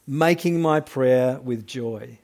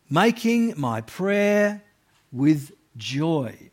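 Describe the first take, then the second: First: Said in the usual way. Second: Joyful tone. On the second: Shown as a demonstration. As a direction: let the joy be heard. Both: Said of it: "you can't really miss the tone".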